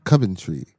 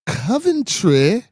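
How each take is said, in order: First: Said in the usual way. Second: High, slow, exaggerated English accent. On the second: Shown as a demonstration. Showing the chat an English accent, high and drawn out. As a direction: stretch it into a hammed-up English accent. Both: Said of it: "that's my English accent".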